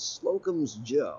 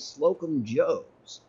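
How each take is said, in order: First: The s sound comes at the end of Slocum. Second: The s sound comes at the end of Joe. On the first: The speaker calls it right. "that there, right there, is the proper pronunciation" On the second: The speaker calls it wrong. "people calling this place Slocum Joe's. It's not"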